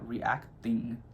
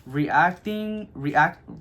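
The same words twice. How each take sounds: First: Said in the usual way. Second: "Reacting, react" tripping over the word, up-pitched; odd pronunciation. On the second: Real, not acted. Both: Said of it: "why am I saying it like that?".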